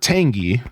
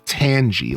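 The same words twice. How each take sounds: First: The g sounds hard, unlike in tangerine. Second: The g sounds soft, as in tangerine. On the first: "I've always called her Tangy because that's just like what I called her as a kid" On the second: "more like tangerine, like tangy, like tangerine"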